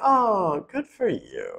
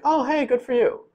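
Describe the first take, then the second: First: It sounds sarcastic and dripping with bad feeling. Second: It sounds sincere and warmly congratulating.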